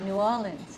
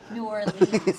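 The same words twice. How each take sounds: First: It is said in a local New Orleans style. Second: It is said in a Buffalo style. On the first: The speaker talks like a local. "you said New Orleans" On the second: The speaker talks like an outsider from Buffalo. "like Buffalo"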